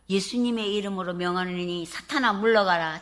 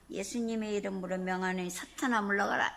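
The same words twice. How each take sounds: First: It is said in a full, loud voice. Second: It is said in a tiny, timid voice.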